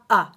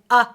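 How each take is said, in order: First: The vowel starts with a sharp throat catch. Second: The same.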